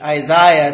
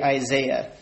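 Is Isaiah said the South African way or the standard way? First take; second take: South African; standard. First: Isaiah is said the South African way. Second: Isaiah is said the standard, non-South African way. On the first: "in South Africa, everybody pronounces it Isaiah" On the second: "I guess I should say Isaiah"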